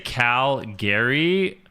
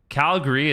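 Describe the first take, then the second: First: It is pronounced the way outsiders say it. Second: It is pronounced the way locals say it. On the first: The speaker is not from the city. The speaker calls it wrong. "then we know you're not from here, or you're just saying it wrong" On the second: The speaker is from the city. The speaker calls it right. "Calgary is how you say it"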